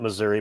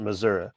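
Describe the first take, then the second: First: It is said the northern way. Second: It is said the local way. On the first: This is how people from the north say it. "those were the people that came from up north" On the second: This is how the speaker's home region says it. "I grew up where they pronounced it Missouri"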